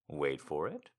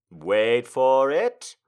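First: Said in the usual way. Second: "wait for it" stretched slow and loud; drawn-out suspense. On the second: Shown as a demonstration. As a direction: drag out "wait for it" louder.

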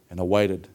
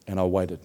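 No difference in how they are said.

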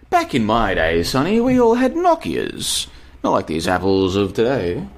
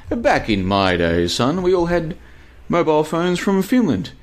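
First: Put-on creaky old man scolding the kids; old boomer voice. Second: Put-on high old grandpa voice; old man lecturing about the old days; old boomer voice. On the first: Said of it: "I sound like a freaking boomer". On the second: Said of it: "I've gone into boomer mode".

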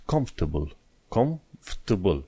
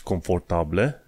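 First: "comfortable" as "kumf-tbl"; skipped sounds. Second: "confortable" as "con-for-ta-ble"; wrong, as spelt. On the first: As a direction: swallow the middle of "comfortable". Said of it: "ai sărit peste câteva". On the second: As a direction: sound every vowel in "confortable", rising. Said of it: "Nu zici confortable". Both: Shown as a demonstration.

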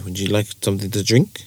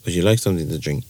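First: "Would you like something to drink" rising on drink; rising English question. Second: "Would you like something to drink" low and falling away; downward question tune. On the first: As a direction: lift the pitch at drink into a question. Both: Shown as a demonstration. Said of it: "should go down".

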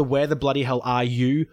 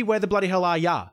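First: "are you" said in full, the official slogan's way; "Where the bloody hell are you?" with "you" spelled out as written; "you" pronounced properly, not Australian; wrong way. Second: "are ya" clipped to a casual Aussie "ya"; "Where the bloody hell are ya?" with "ya" rhyming with "bar"; right way. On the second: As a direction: drop "you" to "ya" like a local. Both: Shown as a demonstration. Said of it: "it should be".

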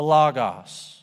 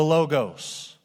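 First: "logos" said with open ah vowels, LAH-gahs; short open O pronunciation. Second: "logos" said with long O vowels, LOH-gohs; long O pronunciation. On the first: Pastor shows congregation the other way, "logos" as LAH-gahs. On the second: Pastor shows congregation one way to say Greek word, "logos" as LOH-gohs. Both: Shown as a demonstration. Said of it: "depending on how you like to pronounce the vowel O".

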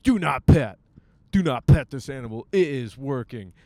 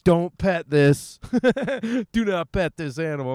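First: Mock warning sign. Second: Slow, loud and high mock warning with a laugh breaking in; slow loud warning, higher. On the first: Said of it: "they're like". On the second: Vlogger mocks the airport dog sign, slow and loud. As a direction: bark it out slowly and loudly like an oversized warning sign. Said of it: "you gotta put it, like".

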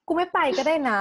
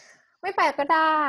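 First: Higher, louder hurt outburst; dramatic sulk. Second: Very slow, higher and louder; drawn-out dramatic sulk. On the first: Hurt by her boyfriend's flat tone, a loud dramatic huff. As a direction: fling it out like a wounded diva. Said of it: "ความดรามาติกมัน มันพุ่งขึ้นมา". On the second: Repeating her threat to her boyfriend, slow and loud. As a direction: stretch each word out in wounded pride. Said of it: "ความดรามาติกมัน". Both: Retold or imitated.

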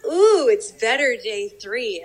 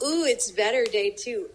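First: Bigger, louder, drawn-out ooh; slow, savoring mock amazement; growing retold delight. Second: Mildly delighted ooh, higher start; impressed little ooh, recalling a trip; pleasantly surprised, lightly acted; retold delight. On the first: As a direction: top the last ooh with more delight. Retold delight growing each day.

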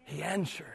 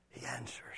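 First: Soft hushed. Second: Whispered, barely audible; hushed whispered close. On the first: Repeated softer. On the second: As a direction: let it fade into a whisper. Final whispered repeat. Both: Acted.

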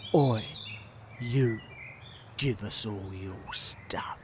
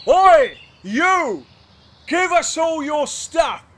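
First: Soft, low, slow whispered threat; slow menacing whisper. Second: High, loud highwayman bark; shouted demand. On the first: Highwayman repeats demand slowly, in a menacing whisper. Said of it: "say it nice and slow". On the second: Highwayman's first try, a loud shouted demand. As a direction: bellow it at the rider. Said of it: "follow my lead". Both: Acted.

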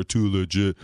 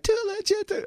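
First: Too legit said lower and a bit louder; lower take. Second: Too legit squeaked very high; higher take. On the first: Director asks for a lower take, lower pitch. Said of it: "do it lower". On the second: Director asks for a higher take, very high pitch. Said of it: "this one higher". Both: Shown as a demonstration.

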